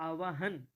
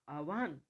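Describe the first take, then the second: No difference in how they are said.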